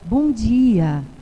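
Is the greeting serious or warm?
warm. It is said in a warm, friendly tone.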